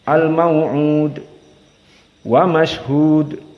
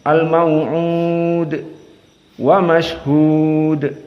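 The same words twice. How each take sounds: First: The long vowels are held only briefly. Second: The long vowels are held noticeably longer. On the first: "Adapun jika qasr, al-buruj dua harokat boleh" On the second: "atau empat"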